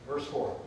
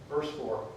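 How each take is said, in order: No difference in how they are said.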